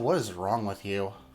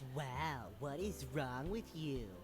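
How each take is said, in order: First: It is said in a normal voice. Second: It is said in a nasal, mocking voice.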